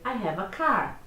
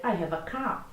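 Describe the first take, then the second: First: American accent, rolling the R in car; American English, strong final R. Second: British accent, dropping the R in car; British English, final R swallowed. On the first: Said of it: "o americano ... ele vai dizer". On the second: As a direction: say car as "cah", no R at the end. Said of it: "praticamente comendo o R do final da frase". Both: Shown as a demonstration.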